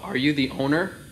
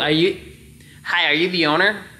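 First: It is said in the speaker's ordinary voice. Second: It is said in an exaggerated put-on voice.

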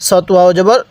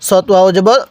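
The two takes are said the same way.

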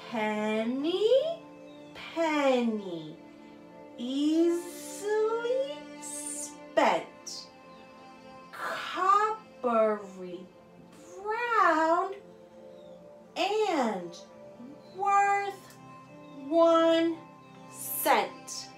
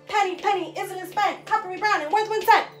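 First: The rhyme is said very slowly. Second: The rhyme is said very fast.

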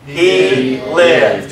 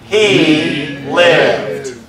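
First: It is said at a normal, plain pace. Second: It is said slowly, with strong emphasis.

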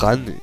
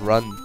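First: The word is pronounced with a German-style vowel. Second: The word is pronounced with an English-style vowel. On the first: The speaker calls it wrong. "Ich sag immer Run" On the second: The speaker calls it right. "Muss man ja Englisch aussprechen"

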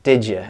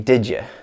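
First: The words blend into one sound like didja. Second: The words blend into one sound like didja.

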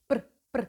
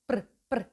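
No difference in how they are said.

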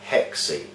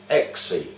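First: The word starts with an h sound. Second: The word starts with a vowel, no h. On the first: The speaker calls it wrong. "mispronounced by witches in the English language as hexe" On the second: The speaker calls it right. "the word 6 is pronounced exe"

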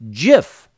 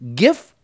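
First: It starts with a soft J-like sound. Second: It starts with a hard G sound. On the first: "as in the American peanut butter brand" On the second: "as in, this is a gift to you, but without the T"

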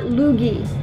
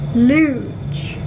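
First: It ends with a hard 'g' plus 'ee'. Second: It ends with a soft 'zh' sound. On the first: The speaker calls it wrong. "not Loogie" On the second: The speaker calls it right. "like the Olympic sport, like Luge"

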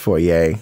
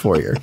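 First: The name is pronounced the French way. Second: The name is pronounced the English way. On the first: "if you're French, it's Fourier" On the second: "if you're everybody else, just Fourier"

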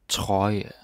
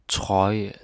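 Both takes have the same delivery.

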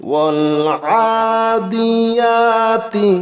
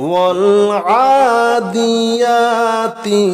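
The two takes are said the same way.

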